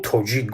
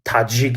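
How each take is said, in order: First: The first vowel sounds like o. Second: The first vowel sounds like a. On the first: This is how Tajiks say their own name. "мо худмон тоҷик гуфта ном мебарем" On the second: This is how Russian speakers say the name. "Моро русҳо мисол таҷик мегӯянд"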